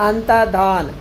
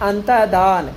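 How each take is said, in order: The two takes are said the same way.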